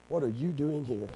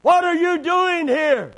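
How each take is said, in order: First: Quiet rebuke. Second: High, loud, drawn-out demand; booming rebuke. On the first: God asking Elijah in the cave, quiet rebuke. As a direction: ask it quietly, without any shout. Same question repeated softly. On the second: God confronting Elijah in the cave, loud rebuke. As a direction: shout it as a stern challenge, nothing small about it. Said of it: "what he said in that still, small voice". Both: Acted.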